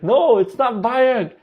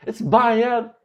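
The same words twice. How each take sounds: First: "bayag" with a final hard g, slowed and high; correcting: "bayag" with a g, not a d; wrong word. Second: "bayad" with a final d, said high and firm; "bayad" ending in d, the correct word; right word. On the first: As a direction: say "bayag" ending in a voiced g. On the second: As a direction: end "bayad" with a clear d. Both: Retold or imitated. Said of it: "I was like".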